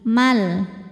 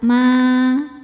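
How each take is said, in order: First: The vowel is short and runs into an l. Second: The vowel is held long, for two counts. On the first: The reader joins it to the next word. "kalau wasol jadi pendek, alifnya gugur" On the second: The reader stops on this word. "kalau berhenti panjang dua harokat"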